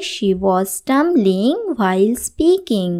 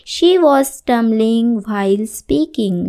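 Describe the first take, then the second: First: Said in the usual way. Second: Very slow, each word clear; slow model sentence. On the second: Shown as a demonstration. Teacher reading the example sentence to students, very slow. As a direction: read it slowly for the class. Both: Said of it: "teacher models English sentence".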